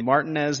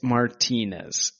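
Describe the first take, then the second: First: The stress is on the first syllable. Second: The stress is on the second syllable. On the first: The speaker calls it wrong. "If it was Martinez, there would be an accent over the A" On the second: The speaker calls it right. "It's Martinez"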